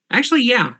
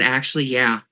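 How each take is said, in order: First: Much higher, sudden aha; sudden realization. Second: Said in the usual way. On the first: Real, not acted. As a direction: it just clicked.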